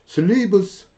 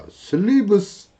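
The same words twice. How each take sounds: No difference in how they are said.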